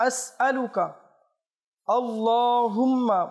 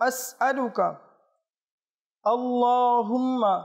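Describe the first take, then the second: No difference in how they are said.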